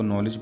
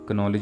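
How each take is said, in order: First: The word starts with an n sound, no k. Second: The word starts with a k sound before n. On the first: The speaker calls it right. "इसको नॉलेज पढ़ेंगे" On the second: The speaker calls it wrong. "कनॉलेज नहीं पढ़ेंगे"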